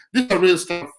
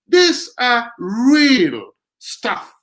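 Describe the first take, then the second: First: Said in the usual way. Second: "real" stretched long and slow; slow right down and hold the word "real"; emphatic, lingering "real"; drawn-out stress on "real". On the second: Real, not acted. Drawn-out emphasis, then plain repeat.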